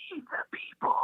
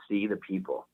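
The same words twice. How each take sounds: First: Whispered. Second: Said in the usual way. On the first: Retold or imitated. Dying grandpa giving his grandson the secret, whispered. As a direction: imitate a frail old man's urgent whisper. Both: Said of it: "He whispered".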